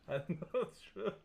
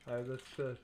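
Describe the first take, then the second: First: Higher, rising, just after a laugh; laughing, higher-pitched evasion; amused dodge. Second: Said in the usual way. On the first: Real, not acted. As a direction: repeat it with the pitch climbing, amused.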